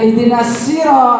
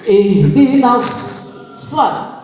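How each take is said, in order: First: The s sound is plain and light. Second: The s sound is emphatic and whistle-like. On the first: The speaker calls it wrong. "jangan ihdinas siro, itu sin berarti bukan sod" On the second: The speaker calls it right. "mulutnya itu"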